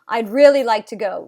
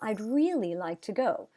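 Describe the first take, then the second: First: The emphasis comes from a louder voice. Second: The emphasis comes from a higher pitch. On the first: "would be volume" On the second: "would be pitch"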